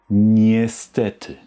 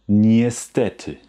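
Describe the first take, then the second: The two takes are said the same way.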